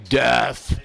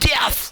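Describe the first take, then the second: First: The word is said in a plain, normal way. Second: The word is spat out hard and aggressively. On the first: "rather than saying death" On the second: "nearly like spitting out the lyrics"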